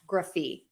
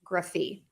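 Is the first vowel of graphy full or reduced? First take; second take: reduced; reduced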